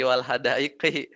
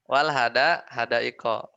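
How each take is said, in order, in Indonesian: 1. Kata terakhir diakhiri vokal 'i'. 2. Kata terakhir diakhiri vokal 'o'. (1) "Yang benar kasyawari'i wal hadaiqi" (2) "Tapi salah kalau bacanya gitu"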